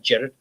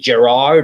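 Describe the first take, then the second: First: The name is said the Scottish way. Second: The name is said the usual non-Scottish way. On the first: "Jared is actually the way you say it in Scotland" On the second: "is it Gerard or Jared?"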